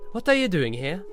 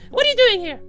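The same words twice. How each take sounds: First: It is said in the speaker's natural voice. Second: It is said in Alice's put-on character voice.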